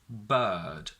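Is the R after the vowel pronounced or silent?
silent. The R after the vowel is silent.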